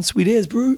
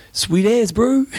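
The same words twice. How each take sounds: First: Upbeat broad kiwi accent; chirpy New Zealand slang reply. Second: Laid-back broad kiwi accent, rising; casual New Zealand drawl on bro. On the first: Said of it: "You can't go wrong in New Zealand". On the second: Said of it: "Stock standard answer for any question". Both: Shown as a demonstration.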